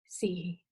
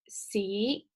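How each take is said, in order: First: The syllable is said with the fourth tone. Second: The syllable is said with the second tone.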